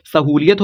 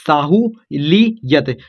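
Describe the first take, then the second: First: Said in the usual way. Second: Sahu ली यत very slowly, in separate pieces; syllable by syllable. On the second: Shown as a demonstration. Teacher building the word for students, slow separated syllables. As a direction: break it into Sahu, ली, यत with pauses.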